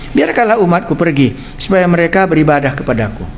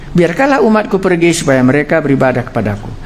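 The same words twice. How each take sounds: The two takes are said the same way.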